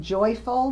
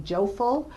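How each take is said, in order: First: Said in the usual way. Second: "joful" with the oy flattened to a long o; distorted sound. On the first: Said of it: "instead of saying". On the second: Shown as a demonstration. Clinician showing distorted sounds, "joful" with long o for oy. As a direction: say "joful", dropping the y glide from joyful. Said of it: "we see distorting sounds in words".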